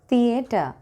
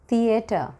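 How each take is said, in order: No difference in how they are said.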